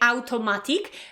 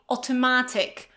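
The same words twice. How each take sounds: First: The first vowel sounds like 'ow'. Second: The first vowel sounds like 'or'. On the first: The speaker calls it wrong. "right away we want to say automatic" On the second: The speaker calls it right. "in English we say automatic"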